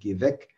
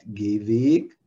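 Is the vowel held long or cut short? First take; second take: short; long. First: The vowel is cut short. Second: The vowel is held long. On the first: "Das ist ein kurzer Vokal" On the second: "das ist lange Vokal"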